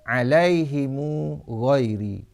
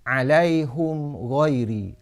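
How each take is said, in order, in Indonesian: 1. Vokal i sebelum h; vokal u mengikuti m. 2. Vokal u sebelum h; m tanpa vokal. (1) "kasrah ha dan silah mim jamak, iaitu membaris depankan mim dan menyambungkan dengan waw" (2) "dhammah ha dan iskan mim jamak"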